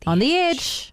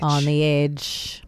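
First: Higher-pitched "On the edge"; going up on EDGE. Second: Slow, low "On the edge"; going down on EDGE. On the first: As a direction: lift the pitch high on EDGE. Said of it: "when you go up on the E". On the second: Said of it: "You gotta go down". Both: Shown as a demonstration.

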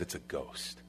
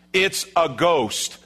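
First: Very soft, low, voiceless dread; acted hushed terror; terrified whisper. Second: Slow, higher, drawn-out announcement; stretched, emphatic acted cry; emphatic declaration. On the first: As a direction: whisper it as if frozen with fear. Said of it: "It says they were terrified". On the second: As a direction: declare it as the only explanation. Replays the disciples' assessment emphatically.

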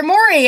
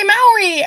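First: Maury said as MORE-ee, with an "or"; rejected pronunciation. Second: Maury said as MOW-ree, with an "ow"; own pronunciation. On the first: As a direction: make Maury start like "more". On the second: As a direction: make Maury start like "mouse". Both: Shown as a demonstration. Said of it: "It's Maury".

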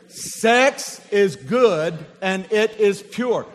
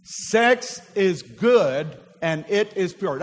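First: Slower and louder, leading the room in unison; louder slow call to repeat. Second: Slowed, each word laid out for the congregation; slow call and response. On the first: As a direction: draw them in, word by word. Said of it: "Say it with me". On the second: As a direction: say it slowly so they repeat. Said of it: "Would you say that with me?". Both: Shown as a demonstration.

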